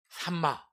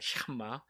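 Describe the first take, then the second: First: The word begins with a plain s sound. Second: The word begins with an sh sound. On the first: The speaker calls it wrong. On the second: The speaker calls it right.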